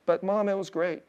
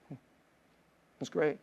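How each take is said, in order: First: Said in the usual way. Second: Said again much softer, almost to himself; soft repeat. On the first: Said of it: "Mom, are you crying right now". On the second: Real, not acted. Pastor softly reassures his mom, much softer. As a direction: let it drop to a hush.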